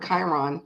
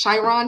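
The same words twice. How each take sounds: First: Chiron said with a hard k, "KY-ron"; quiet final "Chiron" with a hard k start; settled pronunciation. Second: Tentative "Chiron" starting with sh; unsure first try. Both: Shown as a demonstration. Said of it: "I never know how to say that word".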